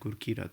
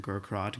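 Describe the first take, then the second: First: The name is said with its Punjabi sounds. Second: The name is said with anglicized, clipped sounds. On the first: This is the name as it truly is. The speaker calls it right. "the true pronunciation" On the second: This is how others said the name. The speaker calls it wrong. "my friends growing up copied the ways teachers would pronounce my name"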